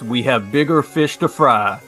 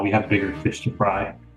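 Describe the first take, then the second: First: It is barked like a drill sergeant. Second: It is said in a casual, conversational tone.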